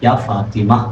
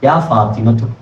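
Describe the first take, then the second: First: The name ends plainly without a tu syllable. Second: The name ends with an added tu syllable. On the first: The name is said on its own, as in speech. "ഫാത്തിമ എന്നേ വിളിക്കൂ" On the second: The name is read joined to the following words. "അവസാനം താ നമ്മൾ ചേർത്തി ഓതുമ്പോൾ മാത്രം ഉച്ചരിക്കും"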